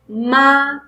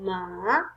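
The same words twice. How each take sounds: First: The pitch rises from middle to high. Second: The pitch dips down and then rises. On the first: "second tone is going to be rising tone" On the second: "the third tone is going down and up"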